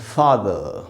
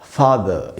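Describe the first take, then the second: The two takes are said the same way.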